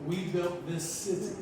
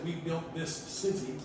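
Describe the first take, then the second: First: The s of this and city merge together. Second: The s of this and city sound separate. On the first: The speaker calls it right. "run the S of this and the C of city into one sound" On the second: The speaker calls it wrong. "We don't say"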